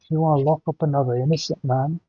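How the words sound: It is said in a put-on character voice.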